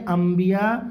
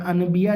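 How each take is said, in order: First: انبیاء as am-biya, humming the m; nun read as mim. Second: انبیاء with a clear n before the b; as written. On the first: Teacher shows how to read it, انبیاء said with an m. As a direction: turn the n of انبیاء into m. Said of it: "یہ اس طرح سے پڑھیں گے". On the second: Teacher shows pupils the spelling, انبیاء said with an n. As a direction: sound out the نون in انبیاء as an-biya. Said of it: "لکھا ہے". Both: Shown as a demonstration.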